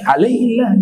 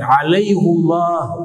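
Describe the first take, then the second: First: An i vowel before a thin, light Allah. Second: A u vowel before a thick, full Allah. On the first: This is the form the grammar rule expects. "jadi tarqiq, jadi tipis" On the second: It honours the name of God that follows. "dibaca tafkhim, dibaca tebal, tidak tipis"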